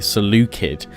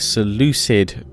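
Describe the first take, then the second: First: The word starts with a K sound. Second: The word starts with an S sound. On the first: This follows the original Greek. "the Greek uh, for it, which would be Seleucid" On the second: This follows the Latin and English rendering. "that's kind of how the English translation of it comes out"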